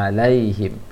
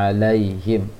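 The two takes are said the same way.

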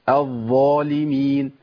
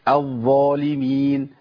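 Both takes have the same delivery.

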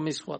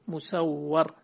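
First: Begins with an i vowel; the w is single. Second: Begins with a u vowel; the w is doubled. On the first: "كله مكسور مخفف الواو" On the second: "فبالضم والتشديد"

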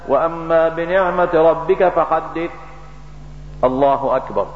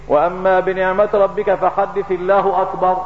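First: A short pause comes before the last phrase. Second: The words run on without a pause. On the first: The speaker calls it right. "تسكت واصل تكبيرة انتقال بالقراءة. لا" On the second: The speaker calls it wrong. "من الخطأ ان تقول"

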